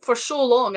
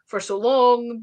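First: Said in the usual way. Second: For so long drawn out slowly, long stretched; slow stress on long. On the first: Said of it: "because for so long". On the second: Retold or imitated. Recalling years unseen, slow stress on for so long. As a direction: lean into for so long, slowing each word.

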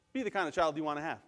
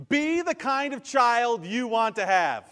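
First: Said in the usual way. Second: Put-on loud, high and slow, landing "Be the kind of child"; emphatic key point. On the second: Shown as a demonstration. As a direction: proclaim "Be the kind of child" slowly and forcefully. Key point, first emphatic take.

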